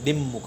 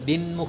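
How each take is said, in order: First: The nasal is a doubled m sound. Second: The nasal is an n sound. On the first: "આ મ double કરી દેશે દિમમુખ એમ કરશે" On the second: "દિનમુખ પણ નહીં"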